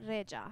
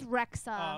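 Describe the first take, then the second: First: The name is said the Albanian way. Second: The name is said the usual English way. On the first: "in Albanian it's Reja" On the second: "it's Rexa"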